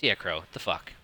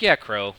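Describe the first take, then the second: First: Lower, softer inner voice muttering; a quieter inside voice, half to himself. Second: Said in the usual way. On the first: Retold or imitated. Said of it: "My other, my other inside voice says". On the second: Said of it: "And you're like".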